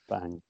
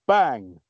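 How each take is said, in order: First: It is said plainly, with little force. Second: It is said with more force and emphasis.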